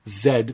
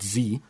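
First: The letter is said the Canadian way, zed. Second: The letter is said the American way, zee.

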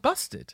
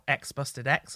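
First: Only the bare name is spoken, no X. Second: The letter X is spoken before and after. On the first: The speaker calls it right. "they're not meant to say the X" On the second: The speaker calls it wrong. "you've committed a cardinal straight edge sin straight away by pronouncing the X's"

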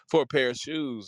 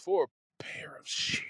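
First: The phrase is spoken in a full voice. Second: The phrase is spoken in a whisper.

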